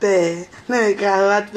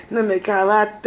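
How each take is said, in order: First: "Ne me cravate" stretched out very slowly, each word lingered on; slow, syrupy imitation of a pleading man; drawn-out mock soft voice. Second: Lightly voiced gentle man pleading, "Ne me cravate" said evenly; a hint of a sweet-talking man; mock soft voice. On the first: Mocking the man who begged her, slow and drawn-out. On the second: Mocking the man who begged her, in a soft voice. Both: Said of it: "Tu fais la voix douce avec moi".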